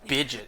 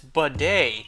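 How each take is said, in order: First: The word does not end in an 'ay' sound. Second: The word ends in an 'ay' sound. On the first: The speaker calls it wrong. "Wow, I'm an imbecile. What am I talking about?" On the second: The speaker calls it right. "that does rhyme with Chevrolet"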